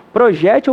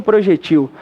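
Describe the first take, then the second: First: Projétil stressed on JÉ, pro-JÉ-til. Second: Projetil stressed on its last syllable; stress on TIL. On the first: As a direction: punch the JÉ of projétil. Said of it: "você pode acentuar o G". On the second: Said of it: "transformar numa palavra oxítona". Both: Shown as a demonstration.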